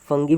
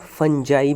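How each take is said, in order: First: It has a hard g and ends in 'ee'. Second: It has a soft j and ends in 'eye'. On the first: "फंगी भी बोल सकते हैं" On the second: "और फंजाई भी बोल सकते हैं"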